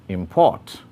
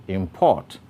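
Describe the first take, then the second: The two takes are said the same way.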